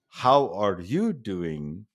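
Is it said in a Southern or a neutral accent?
neutral. It is said in a neutral accent.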